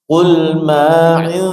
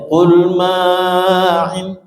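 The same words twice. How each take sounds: First: The vowel after m is held moderately long. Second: The vowel after m is stretched overlong. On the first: The speaker calls it right. "mat alif jangan terlalu panjang. Qul ma'il ya, ayun aja panjangnya" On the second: The speaker calls it wrong. "jangan sampai qul ma'il"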